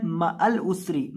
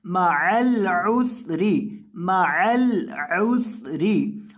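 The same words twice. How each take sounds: First: मअल उसरी rushed and split wrongly, as people misread it; the mistaken quick reading; common wrong reading. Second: मअल उसरी slow, with a whistling s in उसरी; the correct slow recitation; correct slow reading. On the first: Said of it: "मअल उसरी नहीं पढ़ना". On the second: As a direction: recite मअल उसरी carefully, joined right, hissing seen. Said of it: "सीन के अंदर आपने सीटी की आवाज़ पैदा करनी है". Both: Shown as a demonstration.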